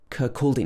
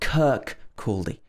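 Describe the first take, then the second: First: The stress is on the second syllable. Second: The stress is not on the second syllable. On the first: The speaker calls it right. "pronounced with stress on the second syllable" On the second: The speaker calls it wrong. "not Kirkcaldy"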